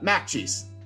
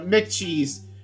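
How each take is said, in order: First: The first syllable is said as 'Mac'. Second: The first syllable is said as 'Mick'. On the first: The speaker calls it wrong. "That's a common misconception" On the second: The speaker calls it right. "No, Mick cheese"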